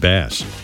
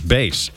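First: The word rhymes with mass. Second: The word rhymes with face. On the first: It refers to the fish. The speaker calls it wrong. "although it's a fish, so I said bass" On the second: It refers to a low-pitched sound. The speaker calls it right. "The actual pronunciation is bass"

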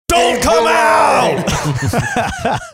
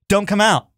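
First: It is said in a forceful, commanding way. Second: It is said in a casual, mild way.

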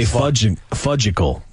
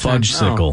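First: The word has no 's' sound before the ending. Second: The word has an 's' sound before the ending. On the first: "You say fudgical" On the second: "instead of fudgesicle"

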